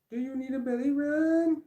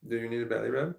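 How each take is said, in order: First: Very high, squeaky pet-talk "Do you need a belly rub?". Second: Said in the usual way. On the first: Real, not acted. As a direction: ask the dog in a high cooing voice. Talking to dog about belly rub.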